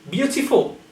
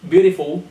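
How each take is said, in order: First: The T is pronounced as a crisp T. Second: The T is pronounced like a soft D. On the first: The speaker calls it right. "it has to sound like T" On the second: The speaker calls it wrong. "not a D"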